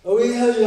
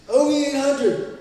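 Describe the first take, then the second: First: Said in the usual way. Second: Slow, drawn-out O E eight hundred, higher; slow reverent brand callout; savoured brand name. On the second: Shown as a demonstration. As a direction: announce "O E eight hundred" slowly like a prized label.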